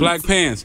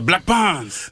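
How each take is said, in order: First: It is said in a plain American accent. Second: It is said in a put-on French accent.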